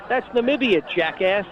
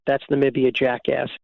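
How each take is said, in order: First: Mocking retort. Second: Said in the usual way. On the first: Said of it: "I said to him". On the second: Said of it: "Everybody liked the".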